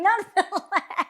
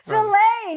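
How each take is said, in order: First: The word sounds like 'fill it'. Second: The word is said the American way. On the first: The speaker calls it wrong. "Fill it like fill it up" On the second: The speaker calls it right. "It's called filet here in America"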